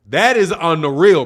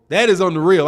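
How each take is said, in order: First: "That" punched, rest falls away; stress on THAT. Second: "is" pressed firmly in the middle; stress on IS. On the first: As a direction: lean hard on "That". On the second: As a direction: hit the word "is" to insist. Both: Real, not acted. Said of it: "repeated with new stress".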